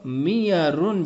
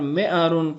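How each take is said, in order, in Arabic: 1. الحرف الأوسط صوت ياء. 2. الحرف الأوسط همزة.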